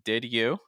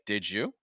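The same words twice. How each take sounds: First: The d is released as a firm separate d. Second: The d and y blend into a j sound. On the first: "with a firm D sound" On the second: "that d sound, because it's followed by a y, becomes like a j"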